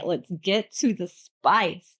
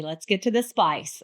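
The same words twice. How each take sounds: First: Slow, stretched-out "get to the spice"; emphatic repeat. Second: Said in the usual way. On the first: Real, not acted. Podcaster teasing listeners with the juicy part, slow and emphatic. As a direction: draw out "Let's get to the spice" word by word.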